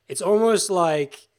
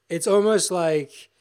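No difference in how they are said.

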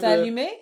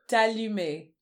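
First: The voice rises at the end. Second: The voice does not rise at the end.

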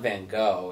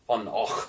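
First: The name is said in a plain English way. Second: The name is said in a Scottish-sounding way. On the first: The speaker calls it wrong. "it's not Van Gogh" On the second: The speaker calls it right. "Super Scottish"

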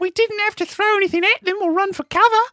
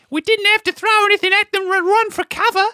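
First: The voice rises at the end. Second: The voice does not rise at the end.

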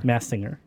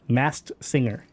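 First: It is said fast. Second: It is said at a normal speed.

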